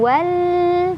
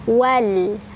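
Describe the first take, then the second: First: The final l is held for a long time. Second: The final l is short and plain. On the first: The speaker calls it wrong. "bukan juga ditahan wal" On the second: The speaker calls it right. "tapi cukup wal"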